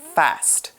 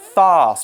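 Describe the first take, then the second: First: The vowel is short, as in 'cat'. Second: The vowel is long, as in 'father'. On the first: "if you go to the U S, you'll hear people say fast" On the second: "in the U K, lots of people say fast with this long R sound"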